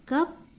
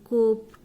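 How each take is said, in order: First: The vowel is a short uh sound. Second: The vowel is a long oo sound. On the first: The speaker calls it right. "But you have to say cup" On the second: The speaker calls it wrong. "You should not say coop"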